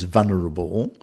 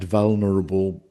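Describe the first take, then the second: First: One of the middle consonants is dropped. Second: Both middle consonants are clearly pronounced.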